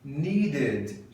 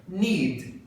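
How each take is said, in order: First: "Needed" in two beats, short weak ending; duas sílabas. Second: "Need" as a single syllable closing on D; uma sílaba. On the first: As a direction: add a light second syllable to "Needed". ("Needed" em duas sílabas, final fraco) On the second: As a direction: say "Need" in one beat. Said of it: "uma sílaba". ("Need" numa sílaba só) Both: Shown as a demonstration.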